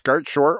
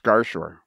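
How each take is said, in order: First: The T sound is pronounced in the middle. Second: The T sound is left out in the middle. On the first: "I wonder if the T is silent on Gartshore" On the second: "I wonder if the T is silent"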